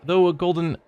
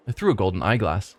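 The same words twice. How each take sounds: First: "though" said as /ðoʊ/ by mistake; misread word. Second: "through" said right as /θɹu/; corrected reading. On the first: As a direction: slip and read "though" instead of "through". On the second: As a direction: fix the slip, "through" clearly. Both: Shown as a demonstration.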